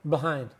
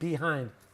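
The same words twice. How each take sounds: First: The sounds are relaxed with little mouth movement. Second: Every sound is said fully and clearly. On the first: "No, we say b, behind" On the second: "that's perfect pronunciation"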